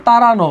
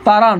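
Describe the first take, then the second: First: "তাড়ানো" with a clear final o; correct pronunciation. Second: "তাড়ান" ending on a closed n; written form. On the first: Teacher answers the pronunciation question, "তাড়ানো" ending in round o. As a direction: open the end of "তাড়ানো" into -no. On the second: Teacher asks how it is pronounced, "তাড়ান" read as spelt. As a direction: stop "তাড়ান" at the n, no vowel after. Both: Shown as a demonstration. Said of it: "উচ্চারণ কি হবে?".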